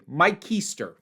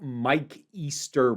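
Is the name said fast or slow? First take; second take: fast; slow. First: The name is said quickly, the words running together. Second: The name is said at a slower, ordinary pace.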